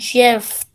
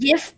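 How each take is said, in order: First: The word begins with a J sound. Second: The word begins with a hard G sound. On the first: "Sounds like peanut butter" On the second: "I call it GIF because it's like, I'm giving you a GIF"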